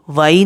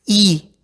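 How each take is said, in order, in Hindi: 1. इसे अंग्रेज़ी शब्द why जैसा बोला जाता है। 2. इसे एक single 'ee' ध्वनि की तरह बोला जाता है। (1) "वाई नहीं"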